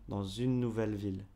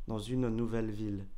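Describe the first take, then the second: No difference in how they are said.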